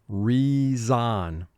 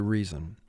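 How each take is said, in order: First: The second syllable has a full vowel, like 'zon'. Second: The second syllable has a weak, reduced vowel. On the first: It is said this way to help with spelling. "we're using a spelling vocabulary pronunciation of the word reason" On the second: It is said this way in everyday speech. "In spoken vocabulary, we would simply say reason"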